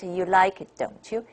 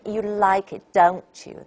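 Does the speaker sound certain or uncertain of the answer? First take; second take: uncertain; certain. First: It sounds uncertain, like a real question. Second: It sounds certain, expecting agreement. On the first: The asker does not know the answer. "you're not very sure about the answer" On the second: The asker expects the answer yes. "you're pretty sure about the answer"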